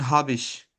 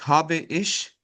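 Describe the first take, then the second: First: The two words run together into one syllable. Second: The two words are said separately and fully. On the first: The speaker calls it right. "بقول هابش" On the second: The speaker calls it wrong. "ما بقولش هابي ايش"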